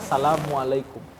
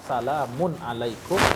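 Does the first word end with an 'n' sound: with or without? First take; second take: without; with. First: The first word ends without an n sound. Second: The first word ends with an n sound. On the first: "enggak pakai alif lam, enggak pakai tanwin pula" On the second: "tanpa alif lam"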